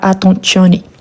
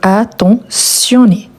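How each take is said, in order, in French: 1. La syllabe du milieu se prononce avec un son t. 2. La syllabe du milieu se prononce avec un son s. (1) "et pas" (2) "on prononce le son de S"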